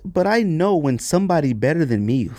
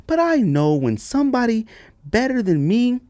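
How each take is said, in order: First: Said in the usual way. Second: Puzzled reading. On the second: Shown as a demonstration.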